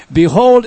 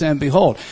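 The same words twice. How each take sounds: First: Behold punched out high and loud; emphatic Behold. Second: Said in the usual way. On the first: Shown as a demonstration. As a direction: hit the word Behold hard, like a proclamation. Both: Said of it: "is added to try to give emphasis".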